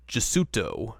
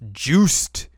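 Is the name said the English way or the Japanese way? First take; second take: Japanese; English. First: The name is said with Japanese syllables. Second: The name is said as one English-sounding syllable. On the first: "Is the Japanese pronunciation of it" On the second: "I like to pronounce it as Juiced"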